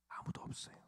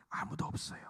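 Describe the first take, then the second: First: Barely audible, breathy whisper; whispered repeat. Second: Said in the usual way. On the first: Real, not acted. Preacher telling congregation nobody can, whispered. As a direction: let it fade into a whisper.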